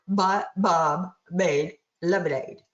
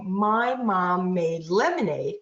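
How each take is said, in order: First: It is said with denasal, blocked-nose resonance. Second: It is said with normal nasal resonance.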